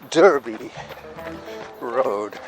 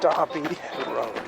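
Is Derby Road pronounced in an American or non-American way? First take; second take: American; non-American. First: Derby is said in an American way. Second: Derby is said in a non-American way.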